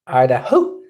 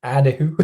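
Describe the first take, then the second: First: "Idaho" as "aɪdaho", broad Scottish vowels; full Scottish "Idaho"; Scottish accent. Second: "Idaho" as "ædəhu", with a Scottish lilt; a light Scottish "Idaho"; Scottish-sounding accent. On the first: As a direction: roll "Idaho" out like a Scot. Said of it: "From bonny old Scotland". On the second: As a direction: tip "Idaho" toward Scotland. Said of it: "that just sounded a bit Scottish to me". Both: Retold or imitated.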